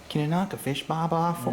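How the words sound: It is said in an imitated Australian accent.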